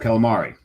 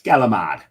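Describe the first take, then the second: First: It is said with Italian pronunciation. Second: It is said with a northeastern Jersey accent.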